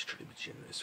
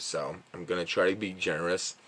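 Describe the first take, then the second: First: Breathy whisper to himself; whispered aside. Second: Said in the usual way. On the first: Real, not acted. Aside while deciding the rating.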